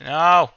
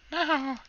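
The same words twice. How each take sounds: First: Loud, raised-pitch outcry; loud dismay. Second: Tiny, very high mouse squeak; mouse impression. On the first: Real, not acted. Gamer to self over a misplaced block, loud cry. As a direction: yell at a slip-up. Another mishap, cries out. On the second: Gamer echoing own outcry as a mouse, high squeak. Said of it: "the mouse impression".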